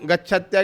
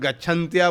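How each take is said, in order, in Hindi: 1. अंत से पहले n ध्वनि नहीं है। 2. अंत से पहले n ध्वनि आती है। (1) "गच्छत्या के स्थान में" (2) "गच्छन्त्या बोलते हैं"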